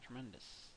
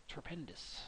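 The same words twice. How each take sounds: First: Said in the usual way. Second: Whisper. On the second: Shown as a demonstration.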